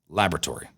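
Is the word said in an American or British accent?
American. It is said in an American accent.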